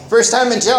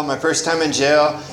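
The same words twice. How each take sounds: First: "First time in jail" repeated higher and louder, "First" hit hard; emphatic repeat. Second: Said in the usual way. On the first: Real, not acted. Telling the room about jail, punchy emphasis on "First". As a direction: land it again with punch on "First".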